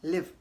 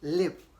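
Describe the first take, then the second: First: The vowel is short, as in 'live'. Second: The same.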